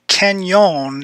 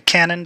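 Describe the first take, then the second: First: It is said with a 'ny' sound, like canyon. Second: It is said with a plain 'n', like cannon. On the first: This is how local people say it. The speaker calls it right. "the way locals pronounce this" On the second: This is how many non-locals say it. The speaker calls it wrong. "a lot of people say Cannon"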